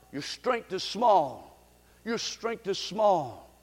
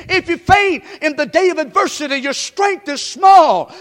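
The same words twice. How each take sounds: First: Much softer, slow and low, your strength is small; hushed echo of the verse; soft repeat. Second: Shouted scripture. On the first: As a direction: let the verse sink in quietly. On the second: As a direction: thunder the verse. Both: Acted.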